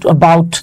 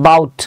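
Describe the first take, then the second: First: The first vowel of the word is pronounced. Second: The first vowel of the word is dropped.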